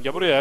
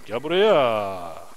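First: Said in the usual way. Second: Slow, low drawn-out gel buraya; mock deep voice. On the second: Calling the animal over, slow low put-on voice. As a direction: drag it out in a spooky low voice. Calls a horse in odd voice.

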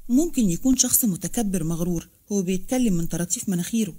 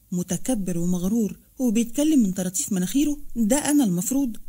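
First: Said in the usual way. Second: Mildly astonished, rising question; stunned echo. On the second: A narrator's reading. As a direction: repeat the insult back in disbelief. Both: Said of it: "ردد عبارتها بذهول".

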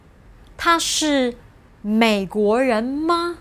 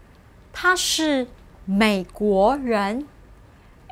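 First: 美国人吗 said with the tune of the statement, ma tacked on the end; same level tune, ma added. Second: Said in the usual way. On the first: Shown as a demonstration. Teacher asks learners to hear no tune change, level question. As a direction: keep the tune of 他是美国人 and just add 吗. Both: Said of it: "If you listen carefully to these two sentences".

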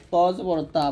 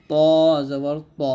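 First: "তা" with a thin open aa after heavy "ত"; wrong thin vowel. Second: Thick, rounded "ত" in "জবর ত"; heavy letter. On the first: Teacher warning learners of the error, thin "তা". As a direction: let "ত" end in a light "তা". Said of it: "বলা যাবে না". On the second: Teacher correcting learners' error, "ত" said heavy. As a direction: say "ত" heavy, never as open "তা". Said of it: "আর তটা মোটা হবে". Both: Shown as a demonstration.

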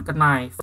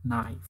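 First: "knife" said as "kenaif", K sounded; wrong pronunciation, K spoken. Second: "knife" said as "naif", K silent; silent K pronunciation. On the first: Teacher shows students the wrong "knife" with a spoken K. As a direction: mispronounce "knife" with the K. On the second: Teacher corrects the class: "knife" with a silent K. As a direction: drop the K in "knife". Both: Shown as a demonstration. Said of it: "bukan knife tapi".

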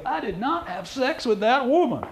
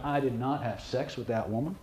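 First: Much higher, slow, strained denial; squeaky stressed denial. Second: Said in the usual way. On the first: Shown as a demonstration. Demonstrating a nervous liar's high strained denial. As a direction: let the voice climb high and tight. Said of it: "Or do they go". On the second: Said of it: "Did they go".

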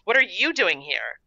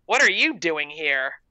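First: Indignant question thrown back, stress on YOU; snapping back. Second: Mild, slow snap; snapped. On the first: Mandy challenging the intruder Gertrude, snapping back. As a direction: turn it back on them, leaning on YOU. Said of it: "Mandy snapped". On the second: Gertrude annoyed at finding Mandy, mildly snapping. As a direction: put a touch of annoyance in the question. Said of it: "Gertrude snapped". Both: A narrator's reading.

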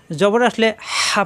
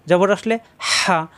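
First: হা read without care for the mid-throat squeeze; wrong articulation demo. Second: হা with breath squeezed from mid-throat; pressed throat sound. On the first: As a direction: say হা casually, as a mistaken example. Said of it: "তাহলে কিন্তু ভুল হয়ে গেল". (গলায় চাপের খেয়াল না রেখে হা) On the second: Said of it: "গলার মাঝখানে চাপ দিতে হবে". (গলার মাঝখানে চাপ দিয়ে হা) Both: Shown as a demonstration.

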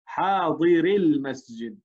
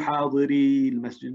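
First: "حاضر المسجد" read slowly, the ya dropped and the ra given a kasra; "حاضر" said short, straight into "المسجد"; correct pronunciation. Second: "حاضري المسجد" with the final ya of "حاضري" kept long; "حاضري" said with the ya, as the form to avoid; wrong pronunciation. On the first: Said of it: "نقول حاضر". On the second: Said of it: "لا نقول حاضري المسجد". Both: Shown as a demonstration.

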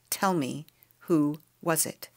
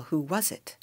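First: Slow, firm demand; no softness. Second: Said in the usual way. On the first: A narrator's reading. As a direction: press for the answer, word by slow word. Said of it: "There was no softness in her voice now".

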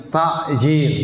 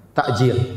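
First: Takjil said with the Arabic ain, a throaty squeeze before the j. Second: Takjil said with a hamzah, a glottal catch before the j. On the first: Preacher giving the correct Arabic Takjil, throaty ain. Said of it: "harusnya pakai ain". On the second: Preacher demonstrating the common hamzah Takjil, glottal catch. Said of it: "pakai hamzah". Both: Shown as a demonstration.

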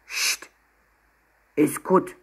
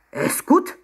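First: Grumbly little voice from a backpack; grumbling. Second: High, loud, outraged question; indignant cry. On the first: Hidden penguin hushes Emma from the backpack, grumbling. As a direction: grumble it under your breath. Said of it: "brummte der Rucksack". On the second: Secretary repeats the insult to Emma, indignant cry. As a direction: echo it in rising disbelief. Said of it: "rief er empört". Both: A narrator's reading.

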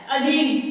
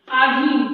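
First: अधीन read with a short अ at the start; अधीन as the correct form, short first a; correct pronunciation. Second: आधीन read with a long आ at the start; आधीन as the common mistake, long first a; wrong spelling read out. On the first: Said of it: "क्या होता है?". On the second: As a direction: say आधीन as aadheen, stretching the first vowel. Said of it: "जबकि आधीन नहीं होता". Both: Shown as a demonstration.

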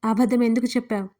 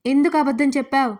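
First: Stern rebuke at normal volume; a firm, reproachful demand; scolding question. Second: Louder, pressing repeat with ఎందుకు hit hard; insistent repeat. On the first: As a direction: scold her for lying. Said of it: "గద్దించాడు Surya". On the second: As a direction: demand again with ఎందుకు punched, falling at the end. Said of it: "మళ్ళీ రెట్టించి అడిగాడు". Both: Acted.

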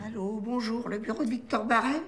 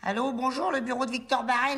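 First: Put-on refined, more restrained Paris accent; careful chic accent. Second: Parigot phone greeting; slipping Parigot accent. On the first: Trainee redoing the greeting after correction, careful chic accent. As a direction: watch every vowel, aim for chic Parisian. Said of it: "fais gaffe à l'accent". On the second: Acted. Trainee rehearsing the greeting, Parigot accent slipping out. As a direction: let the working-class Paris accent show. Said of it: "mais fais gaffe à l'accent".

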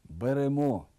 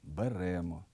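First: Беремо stressed on the second syllable, берЕмо; correct stress. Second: Беремо stressed on the first syllable, бЕремо; wrong stress. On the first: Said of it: "порушують наголос у таких словах". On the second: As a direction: say беремо with stress on бе, softer and lower. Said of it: "Неправильний". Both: Shown as a demonstration.

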